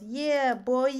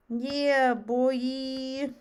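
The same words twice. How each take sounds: First: High, loud mock "Yeah, boy"; imitating Jonathan. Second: High, loud mock "Yeah, boy" again; imitating Jonathan. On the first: Streamer mimics friend Jonathan's catchphrase, loud hyped call. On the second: Streamer repeats friend Jonathan's hype call, loud and high. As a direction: belt it out like Jonathan's catchphrase. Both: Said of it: "He goes".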